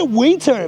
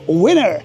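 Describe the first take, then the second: First: It is said with a non-American pronunciation. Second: It is said with an American pronunciation. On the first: "Say winter" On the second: "Americans, they pronounce winter"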